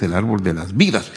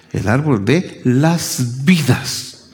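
First: Said in the usual way. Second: "las vidas" lento y marcado; énfasis en el plural. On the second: Shown as a demonstration. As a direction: separar y recalcar "las vidas". ("de las vidas" despacio, palabra por palabra)

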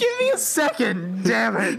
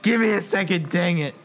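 First: High, choked-up plea for a moment; a weeping NPC holding himself together; crying man. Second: Tearful man, censored. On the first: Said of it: "got tears in his eyes". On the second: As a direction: redo the weeping line with "dang". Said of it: "I'm not allowed to say "damn it". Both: Acted.

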